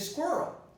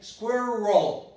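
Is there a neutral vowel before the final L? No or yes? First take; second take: no; yes. First: There is no neutral vowel before the final L. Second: A neutral vowel is heard before the final L. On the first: "I can also eliminate the schwa here" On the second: "without saying squirrel"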